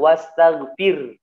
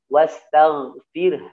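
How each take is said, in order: First: The final breathy h-sound is dropped. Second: The final breathy h-sound is clearly released. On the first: The speaker calls it wrong. "banyaknya baca seperti itu. Ini fatal. Salah ya" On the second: The speaker calls it right. "Haknya harus tetap dikeluarkan"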